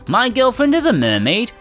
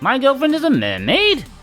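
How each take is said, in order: First: The phrase ends flat, without question inflection. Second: The phrase ends with an exclamatory question rise. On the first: The speaker calls it wrong. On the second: The speaker calls it right.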